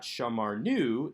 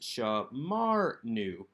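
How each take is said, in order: First: The stress falls on the last syllable, nu. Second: The stress falls on the second syllable, mar. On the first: The speaker calls it wrong. "this is not shamarnu" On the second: The speaker calls it right. "keeps the accent on the second syllable"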